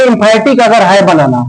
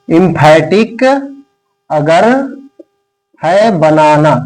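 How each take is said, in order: First: Said in the usual way. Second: एम्फैटिक, अगर, है बनाना said word by word with long pauses; slow, lower dictating voice with long gaps; slow dictation. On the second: Shown as a demonstration. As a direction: dictate each chunk slowly so students can write. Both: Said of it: "मैं ये poem इसलिए लिखवा रहा हूं".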